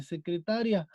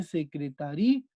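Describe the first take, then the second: First: "secretaria" with the stress on ta. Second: "secretaría" stretched onto a stressed í; stress on final í. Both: Shown as a demonstration. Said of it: "Si nosotros le ponemos un acento".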